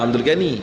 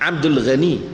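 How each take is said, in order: First: Ghani begins with a plain hard g sound. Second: Ghani begins with a throaty, r-like sound. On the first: The speaker calls it wrong. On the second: The speaker calls it right. "Dalam Rumi pun G H A Ra, Ra"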